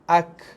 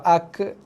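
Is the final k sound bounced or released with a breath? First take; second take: breath; bounced. First: The final k releases a slight puff of breath. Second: The final k bounces with a short echo. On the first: The speaker calls it right. "Yang betul ak, dia ada keluar sedikit hembusan nafas" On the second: The speaker calls it wrong. "itu kita melantunkan bunyi kaf mati salah"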